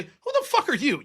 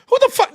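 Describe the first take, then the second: First: Laughing it out. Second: High, loud exploding curse; a sudden loud furious outburst; angry shout. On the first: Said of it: "this is what I wanted to say". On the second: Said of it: "Even though I wanted to say". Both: Retold or imitated.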